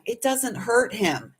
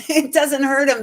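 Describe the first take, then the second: First: Said in the usual way. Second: "It doesn't hurt him" said again through a laugh, higher; laughing repeat. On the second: Real, not acted. Insisting to the listener the dog is fine, laughing.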